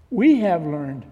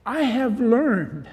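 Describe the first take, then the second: First: "we" hit louder, then falling away; stress on WE. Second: "I" set out high in a slow, deliberate phrase; stress on I. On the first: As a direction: punch "we" to include others. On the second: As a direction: lean on "I", drawing the phrase out. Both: Real, not acted. Corrects I to we.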